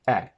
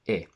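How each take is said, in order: First: The vowel is open, with the tongue lower. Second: The vowel is closed, with the tongue held high. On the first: The speaker calls it right. "in English it's open" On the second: The speaker calls it wrong. "produce this sound as a closed I"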